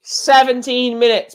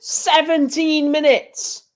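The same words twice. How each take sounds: First: Said in the usual way. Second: Much higher, slow, exasperated "Seventeen minutes!"; disbelieving. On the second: Real, not acted. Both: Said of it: "It's ridiculous".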